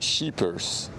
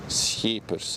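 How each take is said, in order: First: It begins with an English sh sound. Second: It begins with the Dutch sch sound. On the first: The speaker calls it wrong. "No, not sheepers" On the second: The speaker calls it right. "That would be the Dutch"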